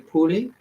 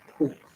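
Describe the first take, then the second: First: The name ends with an extra ee sound. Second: The name ends on the L sound. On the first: "you're supposed to pronounce the E" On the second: "I am going to pronounce it as just Poole"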